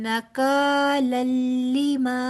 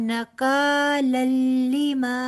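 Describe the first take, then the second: No difference in how they are said.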